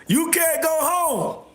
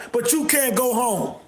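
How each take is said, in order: First: Slow, higher mocking drawl; slow high taunting singsong; mocking repeat. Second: Said in the usual way. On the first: Real, not acted. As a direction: stretch it out to rub it in. Mocking repeat after laughing.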